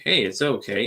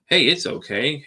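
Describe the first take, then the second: First: Softer mock reassurance. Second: Higher, louder soothing hey, mocking the people who say it; mock reassurance. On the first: Podcaster mocking people who calm him down, repeating the soothing line more quietly. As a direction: let the repeat settle down, lightly mimicking. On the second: Podcaster mocking people who calm him down, in an exaggerated soothing voice. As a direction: imitate an overeager comforter, a touch loud. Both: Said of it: "you're sitting there telling me".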